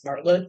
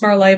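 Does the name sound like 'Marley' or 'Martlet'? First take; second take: Martlet; Marley. First: The name sounds like 'Martlet'. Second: The name sounds like 'Marley'. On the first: This is how people commonly say the name. "everyone I know pronounces it as Martlet" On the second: This is probably how the name is meant to be said. "it's probably pronounced Marley"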